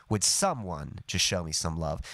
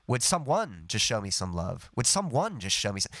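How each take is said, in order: First: "someone" emphasized on "some", falling after it; stress on SOME. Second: "someone" with emphasis pushed onto "one"; stress on ONE. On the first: Teacher showing natural emphasis, "someone" stressed on "some". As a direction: lean on the first syllable of "someone". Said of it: "the emphasis is on some". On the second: Teacher showing the awkward emphasis, "someone" stressed on "one". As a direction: lean on the second syllable of "someone". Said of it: "the emphasis isn't on one". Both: Shown as a demonstration.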